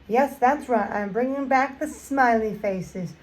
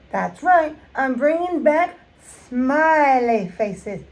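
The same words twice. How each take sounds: First: Said in the usual way. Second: Drawn-out proud reveal, back punched; slow emphatic announcement. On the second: Acted. Announcing the smiley nail theme to viewers, slow and emphatic. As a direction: stretch it out, leaning hard on back.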